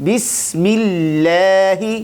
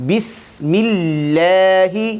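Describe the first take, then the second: Both takes have the same delivery.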